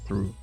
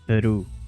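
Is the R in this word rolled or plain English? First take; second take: plain English; rolled. First: The R is a plain English R. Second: The R is rolled or trilled. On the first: This is the usual English way. "instead of" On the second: This is how the game characters say it. "pronounce the R as er, er, like"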